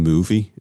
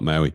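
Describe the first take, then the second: First: The name sounds like the word 'movie'. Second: The name sounds like the word 'Maui'. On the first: This is the official pronunciation. "movie is how you actually pronounce it" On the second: This is what people commonly say. "but we all call it Maui"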